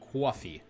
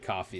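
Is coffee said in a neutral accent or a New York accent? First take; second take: New York; neutral. First: The word is said in a New York accent. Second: The word is said in a neutral accent. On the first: "it's it's coffee" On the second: "New Yorkers don't say coffee"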